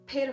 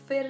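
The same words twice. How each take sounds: First: It begins with an aspirated p sound. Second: It begins with an f sound. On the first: The speaker calls it right. "फिर होता है।" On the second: The speaker calls it wrong. "तो फिर नहीं"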